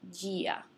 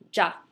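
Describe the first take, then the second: First: The word is said as two syllables. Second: The word is said as one syllable. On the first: The speaker calls it wrong. "Not gia" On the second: The speaker calls it right. "you do not pronounce the I"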